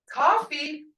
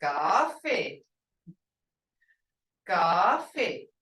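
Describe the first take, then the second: First: "coffee" said the English way, higher with a rise. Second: "Coffee" said lower with a falling Muskogee tone. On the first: Teacher contrasting English coffee for students, higher and rising. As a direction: say "coffee" like plain English, lifting up. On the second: Teacher showing students the Muskogee coffee, lower and falling. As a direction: drop "Coffee" low and let it fall. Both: Shown as a demonstration. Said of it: "you gotta have that tone that says".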